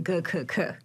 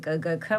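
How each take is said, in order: First: The three sounds are g, k, then k. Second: The three sounds are g, g, then k. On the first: "Western would say" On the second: "in Eastern we would say"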